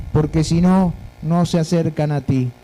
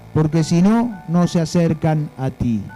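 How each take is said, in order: Both takes have the same delivery.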